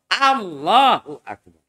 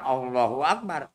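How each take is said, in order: First: The phrase is pronounced very clearly and precisely. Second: The phrase is pronounced loosely and unclearly. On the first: The speaker calls it right. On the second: The speaker calls it wrong.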